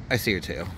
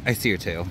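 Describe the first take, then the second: No difference in how they are said.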